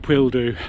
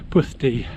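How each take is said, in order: First: The middle sound is a plain l. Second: The middle sound is a hissed ll. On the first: The speaker calls it wrong. "Not Pwildu" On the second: The speaker calls it right. "It's pronounced Puthdi"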